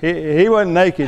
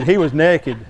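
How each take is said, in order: First: Said in the usual way. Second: Naked with a short e, like "neck-id"; Southern "nekkid". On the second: Shown as a demonstration. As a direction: say naked as NEK-id. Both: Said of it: "Y'all know naked's nakeder than".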